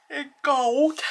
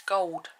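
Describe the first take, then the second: First: Gold yawned out, high and loud; yawning. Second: Said in the usual way. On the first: Real, not acted. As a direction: say it mid-yawn. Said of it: "In a yawn". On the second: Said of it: "Sorry, I'll say it again".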